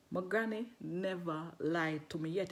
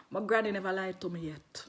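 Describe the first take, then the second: First: Slow, deliberate and lower; slow emphasis. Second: Said in the usual way. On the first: Retold or imitated. Woman assures the man about granny, slow emphasis. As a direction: draw out each word of the assurance.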